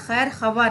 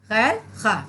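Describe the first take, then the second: First: A 'w' sound is heard after the 'kh'. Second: No 'w' sound is heard after the 'kh'. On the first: The speaker calls it wrong. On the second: The speaker calls it right.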